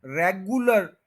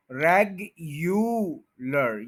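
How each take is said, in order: First: रेगुलर said as re-gu-lar without the yu; रेगुलर with the yu swallowed; wrong pronunciation. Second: रेगुलर said slowly as reg-yu-lar with a clear yu; careful slow reg-yu-lar; correct pronunciation, slow. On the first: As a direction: demonstrate रेगुलर the mistaken way. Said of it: "रेगुलर गलत है". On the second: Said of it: "रेगुलर ये ठीक है". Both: Shown as a demonstration.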